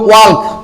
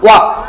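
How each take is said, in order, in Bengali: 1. L-এর ধ্বনি K-এর আগে উচ্চারিত হয়। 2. L-এর ধ্বনি সম্পূর্ণ বাদ যায়। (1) "এটা যদি আমরা এল দিয়ে উচ্চারণ করি তাহলে ওয়াল্ক" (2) "আমরা এল বাদ দেব, তাহলে হবে ওয়াক"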